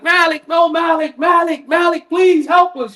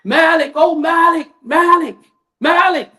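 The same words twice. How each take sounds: First: High shouted pleas for help; anguished screams. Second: High, pained calling out of a name; agonized wailing. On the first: The damned in hellfire shouting high for Malik. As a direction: scream his name, desperate and begging. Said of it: "screaming for Malik". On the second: Preacher voicing the damned crying to Malik, high wailing. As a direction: wail for him from the fire, begging. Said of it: "screaming in pain and agony". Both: Retold or imitated.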